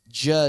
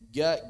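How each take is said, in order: First: The consonant is a soft, wet j sound. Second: The consonant is a hard, dry g sound. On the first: This is how Levantines say it. "orang-orang Syam basah" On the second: This is how Egyptians say it. "orang-orang Mesir rata-rata kering jimnya, bahkan mirip G"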